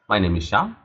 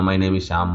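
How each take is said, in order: First: It is said warmly and pleasantly. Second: It is said flatly and hesitantly.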